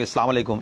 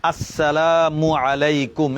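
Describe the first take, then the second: First: "আসসালামু আলাইকুম" rushed and swallowed, quiet, like "islama lekum"; sloppy mumbled greeting. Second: "আসসালামু আলাইকুম" very slow, every syllable distinct; clear careful greeting. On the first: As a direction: toss off "আসসালামু আলাইকুম" carelessly, syllables dropped. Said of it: "নাকি ... এভাবে? না, না". ("আসসালামু আলাইকুম" তাড়াহুড়ো করে অস্পষ্টভাবে বলা) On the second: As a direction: spell out "আসসালামু আলাইকুম" slowly and clearly for the class. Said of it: "এভাবে স্পষ্ট করে বলবো". ("আসসালামু আলাইকুম" ধীরে, স্পষ্ট শুদ্ধ উচ্চারণে) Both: Shown as a demonstration.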